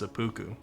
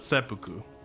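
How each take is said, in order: First: The middle syllable is stressed. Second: The middle syllable is not stressed. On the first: The speaker calls it right. "We gotta put the emphasis on the poo" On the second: The speaker calls it wrong. "it's not seppuku"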